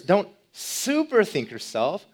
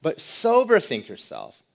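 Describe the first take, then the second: First: Super said high and slow with a rising tune; super think yourself, super pitched up and drawn out; stress on super. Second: Sober said slow and falling; stress on sober. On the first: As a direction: lift and stretch super in warning. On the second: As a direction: set sober down firmly and slowly. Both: Shown as a demonstration. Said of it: "In other words".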